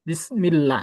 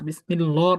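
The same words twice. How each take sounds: First: The L in -llah is light and thin. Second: The L in -llah is full and heavy. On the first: The speaker calls it right. "চিকন হবে" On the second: The speaker calls it wrong. "বিসমিল্লাহ না"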